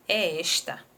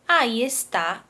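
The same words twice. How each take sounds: First: "esta" with open stressed ES, weak final syllable; stress on first syllable of esta. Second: "está" with the stress on final TÁ; stress on last syllable of está. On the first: Teacher reading the apple example to pupils, stress on ES in "esta". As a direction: say "esta" as ES-ta, opening the first vowel. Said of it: "O acento, ele vai trazer". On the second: Teacher reading the second apple sentence, stress on TÁ in "está". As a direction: say "está" as es-TÁ, weight at the end. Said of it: "ele vai mudar o sentido da palavra". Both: Shown as a demonstration.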